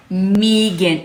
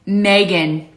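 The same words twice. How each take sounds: First: Megan with a long EE, "MEE-gan"; said differently. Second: Megan as "MAY-gun"; her one way. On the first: Trying out another way to say it, Megan as MEE-gan. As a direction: draw out the first vowel of Megan as "mee". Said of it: "I'm trying to say it differently". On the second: Showing how it always sounds to her, Megan as MAY-gun. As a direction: say Megan with an AY in the first syllable. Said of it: "but sound the same". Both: Shown as a demonstration.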